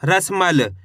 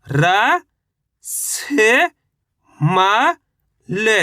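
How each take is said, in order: First: रसमल said whole, falling at the end; blended word. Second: र, से, म said one at a time with pauses; letter by letter. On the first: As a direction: join the letters into रसमल smoothly. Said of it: "तो मिलके बन जाएगा". (रसमल को जोड़कर एक साथ बोलना) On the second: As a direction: sound out र से म slowly like a teacher. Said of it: "चलिए देखिए किस तरीके से इनको पढ़ा जाता है". (र से म एक एक अक्षर रुककर बोलना) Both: Shown as a demonstration.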